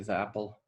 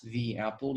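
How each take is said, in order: First: The word 'the' has a short, weak vowel. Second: The word 'the' has a full, long vowel. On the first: "in colloquial English, it's common to say" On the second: "in order to pronounce the two vowels"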